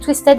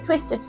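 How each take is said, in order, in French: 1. La fin se prononce à la française, comme 'head'. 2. La fin se prononce à l'anglaise, comme 'id'. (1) "moi j'ai Twisted à la française pour vous" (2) "mais normalement c'est Twisted"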